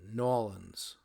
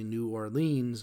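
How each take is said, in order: First: It is said the local, clipped New Orleans way. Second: It is said with a New Jersey pronunciation.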